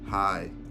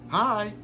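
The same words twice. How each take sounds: First: The greeting sounds flat and dry. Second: The greeting sounds lively and energetic. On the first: The speaker is not interested in talking. The speaker calls it wrong. "with a tone of like, "Hi," is dry" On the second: The speaker wants to start a conversation. The speaker calls it right. "it's a transfer of energy"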